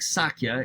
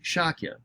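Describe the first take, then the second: First: The word begins with a plain s sound. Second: The word begins with an sh sound. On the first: The speaker calls it wrong. "even though it looks like Sakya" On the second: The speaker calls it right. "it's really Shakya"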